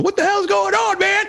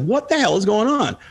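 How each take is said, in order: First: Confused viewers. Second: A milder, higher baffled question; reader's confusion. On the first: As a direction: play the lost viewer throwing up his hands. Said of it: "everybody's going". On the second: Recalling his own teenage confusion over the comic, mildly baffled. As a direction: lighter mock puzzlement, still raised. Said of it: "It's like". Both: Retold or imitated.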